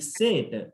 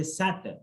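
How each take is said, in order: First: "set" with frozen lips and a closed vowel; wrong set. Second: "set" with lips open, an open "æ" vowel; correct set. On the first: Teacher showing the frozen-lip version. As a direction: say "set" slowly without moving the lips. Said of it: "lips are mostly frozen". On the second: Teacher showing the open-lip version. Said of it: "my lips also open". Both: Shown as a demonstration.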